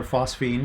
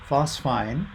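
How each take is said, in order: First: "phosphine" ending like "feen"; alternative pronunciation. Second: "phosphine" ending like "fine"; alternative pronunciation. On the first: Lecturer offers the other way to pronounce the gas, "phosphine" as FOSS-feen. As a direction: say "phosphine" as FOSS-feen, long EE in the second syllable. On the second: Lecturer offers one way to pronounce the gas, "phosphine" as FOSS-fine. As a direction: say "phosphine" as FOSS-fine, long I in the second syllable. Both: Shown as a demonstration. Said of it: "depending on how you pronounce it".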